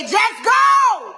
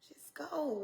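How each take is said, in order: First: Booming high shout of God's order; God's command. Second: Breathy whispered echo. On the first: Retold or imitated. Preacher shouts God telling her to just go. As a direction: bellow it like a divine command. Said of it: "God said". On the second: Acted. Preacher whispers the command back to the congregation. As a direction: hush it like a secret urging.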